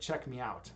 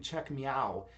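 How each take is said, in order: First: The ending is said as two words, 'me out'. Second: The ending is said as one syllable, 'meow'. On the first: The name is read as the phrase it spells. The speaker calls it right. "instead of Check Me Out" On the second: The final T was taken as a random extra letter. The speaker calls it wrong. "I was calling you Check Meow"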